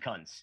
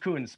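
First: The vowel is a short 'uh' sound. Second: The vowel is a long 'oo' sound. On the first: This is how the speaker chooses to say it. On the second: This is how others say the name. "they say it's pronounced Coons"

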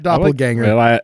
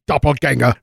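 First: The word is pronounced the English way. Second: The word is pronounced the German way. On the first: It follows the newer common usage. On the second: It follows the original language.

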